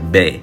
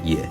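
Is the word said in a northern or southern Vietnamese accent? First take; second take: Northern; Southern. First: It is said with a northern Vietnamese accent. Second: It is said with a southern Vietnamese accent. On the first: "北乐音它是讲美" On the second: "南乐音在这边他们都讲也"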